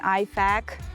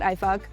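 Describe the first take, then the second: First: The second syllable has the vowel of 'back'. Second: The second syllable has the vowel of 'buck'. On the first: The speaker calls it right. "please pronounce this this acronym correctly. It's an I FAK" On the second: The speaker calls it wrong. "It's not I FUK"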